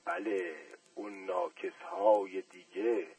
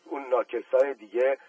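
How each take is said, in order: First: Slow and soft, pleased; satisfied smile. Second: Said in the usual way. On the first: A narrator's reading. Uncle repeating the shoe-shiner's phrase with a satisfied smile. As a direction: savour the words with a smile. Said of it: "با لبخند رضایت تکرار کرد". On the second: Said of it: "تکرار کرد".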